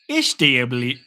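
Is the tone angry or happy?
happy. It is said in a happy tone. "Or I could say it happily"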